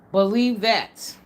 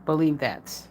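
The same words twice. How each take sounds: First: "Believe that" drawn out slowly, every word weighted; slow emphatic. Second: Said in the usual way. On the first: Shown as a demonstration. Vlogger repeating her warning to viewers, slow and emphatic. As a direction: lean on it slowly, driving the point home.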